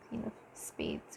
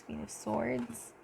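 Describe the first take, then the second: First: Unvoiced whisper of the wrong card; whispered misreading; whispered slip. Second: Soft, slow correction of the card name; soft, slow correction of "Queen of Swords."; careful correction. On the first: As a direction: breathe the name under your breath. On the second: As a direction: say "Queen of Swords." softly and slowly, setting it right. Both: Real, not acted.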